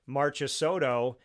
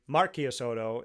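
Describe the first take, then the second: First: The name is said with an American pronunciation. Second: The name is said with an Italian pronunciation. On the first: "the American way" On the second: "the Italian way of saying it"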